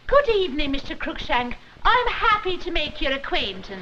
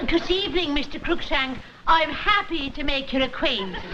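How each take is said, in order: First: Put-on Scottish accent with Irish slips. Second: Mock Scottish accent drifting Irish; a wobbly Scottish brogue that comes out Irish; Irish-sounding Scottish try. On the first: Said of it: "a little bit of Ireland got into your burr". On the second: Wife practising Scottish for the son's father, accent slipping Irish. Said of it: "you sound like a spy for the I R A".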